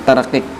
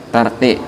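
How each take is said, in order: No difference in how they are said.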